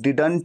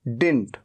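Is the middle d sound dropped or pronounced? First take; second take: pronounced; dropped. First: The middle d sound is pronounced. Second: The middle d sound is dropped. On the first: "इसे कई लोग डिडंट भी कहते हैं" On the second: "ये इसे डिंट भी कहते हैं"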